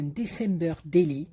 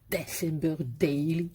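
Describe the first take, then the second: First: English words in a Marseille French accent. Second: Mock-proud replay of French-accented English; playfully put-on English accent, French-tinged. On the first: Real, not acted. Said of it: "Vous avez vu mon accent?". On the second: Shown as a demonstration. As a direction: show off your Marseille-accented English. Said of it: "comme j'ai dit ça".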